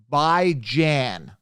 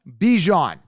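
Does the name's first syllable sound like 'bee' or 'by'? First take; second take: by; bee. First: The first syllable sounds like 'by'. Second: The first syllable sounds like 'bee'. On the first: The speaker calls it right. "which is pronounced by Jan" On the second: The speaker calls it wrong. "That's how they're pronouncing it"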